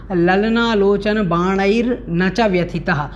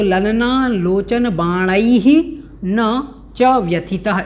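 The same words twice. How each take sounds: First: Said in the usual way. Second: Slow "बाणैः" with a rise, a pause, then "न च व्यथितः"; split the words. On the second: Shown as a demonstration. Teacher separates the words for students, slowly. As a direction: break after "बाणैः", words set apart slowly. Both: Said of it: "इस प्रकार से ये अलग अलग हो जाएगा".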